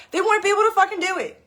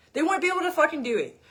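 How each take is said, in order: First: Higher, louder and fast, words tumbling out; exasperated outburst. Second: Said in the usual way. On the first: Real, not acted. Coach ranting to followers about diet-company staff, exasperated high fast outburst. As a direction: blurt it out in disbelief.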